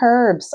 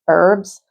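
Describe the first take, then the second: First: It is said with a British accent. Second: It is said with an American accent.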